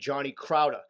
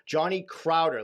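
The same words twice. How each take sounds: First: The name is said in a local regional accent. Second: The name is said with a neutral pronunciation. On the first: This is how people in the host's home region would say it. "where I'm from, you would be" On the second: This is how the name is meant to be said. "Let me say it like that"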